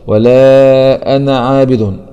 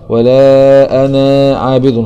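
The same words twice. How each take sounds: First: The final vowel of 'ana' is short. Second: The final vowel of 'ana' is drawn out long. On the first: The speaker calls it right. "هكذا ولا أنا عابد" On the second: The speaker calls it wrong. "لا أقرأ ولا أنا عابد، خطأ"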